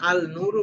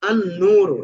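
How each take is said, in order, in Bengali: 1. আর্টিকেলের 'l' 'n' এর আগে স্পষ্টভাবে উচ্চারিত হয়। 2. আর্টিকেলের 'l' 'n' এর সাথে মিশে যায়। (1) "এখানে যদি আল নূরু বলা হয় তখন এটা ভুল হবে।" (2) "এখানে কিন্তু আল নূরু বলি নাই।"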